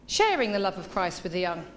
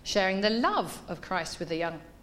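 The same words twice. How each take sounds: First: The word sharing carries the main stress. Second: The word love carries the main stress. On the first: The focus is on how the act of sharing is done. "let's emphasise every word in that title" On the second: The focus is on what kind of love is shared. "What does this love look like?"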